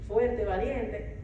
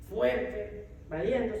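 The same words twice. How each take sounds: First: "fuerte" and "valiente" stretched out slowly, each word falling; slow ironic emphasis. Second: Said in the usual way. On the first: Shown as a demonstration. Mother mocking her own bravado, slowly stressed. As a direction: lean on "fuerte" with a knowing slowness.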